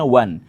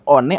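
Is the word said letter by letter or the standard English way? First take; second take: standard English; letter by letter. First: It is said the standard English way, like 'wan'. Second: It is sounded out letter by letter, like 'o-ne'. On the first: The speaker calls it right. "orang Inggris nyebutnya one" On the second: The speaker calls it wrong. "harusnya dibacanya one atau oni"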